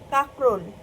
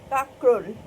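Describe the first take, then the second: Both takes have the same delivery.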